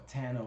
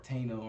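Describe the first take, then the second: First: Tano said as TAN-oh; first syllable of Tano rhymes with "can"; Tano with a short A. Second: Tano said as TAY-no; first syllable of Tano rhymes with "say"; Tano with a long A. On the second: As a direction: say the first vowel of Tano as in "day". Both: Shown as a demonstration. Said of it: "how to actually pronounce it".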